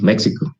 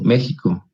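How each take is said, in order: First: The word is pronounced with an American accent. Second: The x is pronounced the way Spaniards say it. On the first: This is how Americans say it. "podemos decir, como los, los gringos" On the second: This is how people from Spain say it. "Por eso dicen México"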